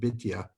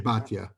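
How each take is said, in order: First: The name is said in a non-Ashkenazi pronunciation. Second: The name is said in the Ashkenazi pronunciation. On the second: "We say Batya"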